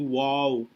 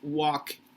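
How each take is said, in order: First: The L sound is pronounced in the word. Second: The L sound is silent in the word. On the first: The speaker calls it wrong. "We tend to say wall" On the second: The speaker calls it right. "It doesn't have the L pronunciation"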